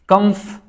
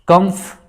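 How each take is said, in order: No difference in how they are said.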